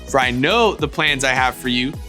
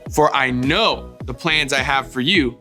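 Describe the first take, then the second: First: It is said at a fast pace. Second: It is said at a normal pace.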